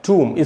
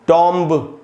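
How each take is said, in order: First: It has an oo vowel and no b. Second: It has a short o vowel and a b. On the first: The speaker calls it right. "इसमें बी silent होगा और ऊ का sound आएगा" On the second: The speaker calls it wrong. "इस प्रकार से नहीं पढ़ना है"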